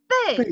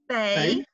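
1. Die Tonhöhe fällt scharf von hoch zu tief. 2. Die Tonhöhe steigt von mittel zu hoch. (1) "And the fourth one" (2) "so the second tone, then?"

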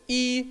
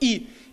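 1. Высота остаётся высокой и ровной. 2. Высота резко падает от высокой к низкой. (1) "первый – это «и»" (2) "четвертый – «и»"

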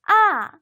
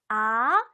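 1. 높은 데서 낮은 데로 내려가요. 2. 낮은 데서 높은 데로 올라가요. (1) "위에서 아래로" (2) "아래서 위로"

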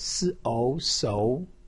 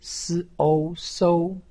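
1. 音高从中到高上升。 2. 音高保持高而平。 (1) "二声" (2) "一声"

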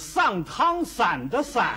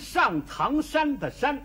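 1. 天津话，shan向san合流。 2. 普通话，shan与san分得清。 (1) "说天津话是" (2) "这是普通话"

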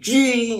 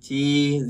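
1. Từ này được nói cứng và mạnh mẽ. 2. Từ này được nói nhẹ nhàng, êm ái. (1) "Chi mạnh hơn nữa, chi cái này mất đi cái vẻ đẹp của từ chi rồi, nó cũng như chi này" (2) "Chi nhẹ nhàng á"

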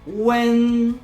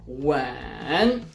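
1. Ton utrzymuje się wysoko, równo i długo. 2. Ton najpierw opada, potem wznosi się. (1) "To jest długi i wysoki dźwięk" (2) "Opadamy i wznosimy się"

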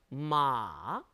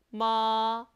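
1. 길게 쭉 내려와요. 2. 음이 높게 길게 유지돼요. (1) "삼성은 쭉 길게 내려옵니다" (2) "일성은 높은 음을 길게 빼줍니다"

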